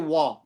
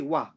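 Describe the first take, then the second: First: The vowel is said with a full, rounded mouth. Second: The vowel is said with a flat, empty mouth. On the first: The speaker calls it wrong. "We don't say wa" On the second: The speaker calls it right. "We say wa"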